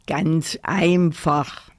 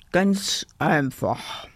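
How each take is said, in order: First: Slow, self-assured teddy grumble; grumbled. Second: Slow, mocking echo; cheeky call. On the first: Teddy explains school to the doll, slow grumble. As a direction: explain it slowly, with authority. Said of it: "brummte der Teddy". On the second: Kasper mimics the bossy teddy, slow cheeky echo. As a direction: parrot it teasingly, drawn out. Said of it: "rief Kasper". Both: A narrator's reading.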